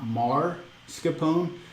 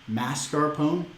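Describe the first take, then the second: First: The r sound comes early in the word. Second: The r sound comes late in the word. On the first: The speaker calls it wrong. "not mascarpone" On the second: The speaker calls it right. "I'm saying mascarpone"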